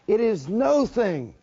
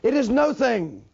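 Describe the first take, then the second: First: It is said slowly, word by word. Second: It is said at a faster pace.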